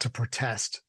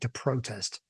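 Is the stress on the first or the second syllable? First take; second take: second; first. First: The stress falls on the second syllable. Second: The stress falls on the first syllable. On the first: This is how most Americans do not say the verb. "Not to protest" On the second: This is how most Americans say the verb. "So Americans, I think, massively say to protest"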